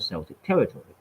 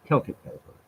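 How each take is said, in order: First: Celtic said as "SEL-tik". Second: Celtic said as "KEL-tik"; hard C pronunciation. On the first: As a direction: say Celtic with an S sound. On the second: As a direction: say Celtic with a K sound. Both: Real, not acted. Self-corrects pronunciation of Celtic.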